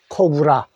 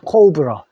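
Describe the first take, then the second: First: The word ends with a full open 'ah' vowel. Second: The word ends with a reduced 'uh' vowel. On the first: This is how the word is read as spelled locally. "그대로 읽으니까 코브라" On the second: This is how native English speakers say it. "영어 발음은 어떻게 될까? ... 코브러라고 합니다"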